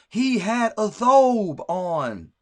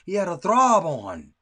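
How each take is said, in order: First: The word is said without an r sound. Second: The word is said with an r sound. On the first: The speaker calls it right. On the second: The speaker calls it wrong.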